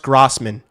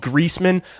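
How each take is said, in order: First: The first syllable sounds like 'gross'. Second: The first syllable sounds like 'grease'. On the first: The speaker calls it right. "It's pronounced Grossman" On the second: The speaker calls it wrong. "I might care about that one"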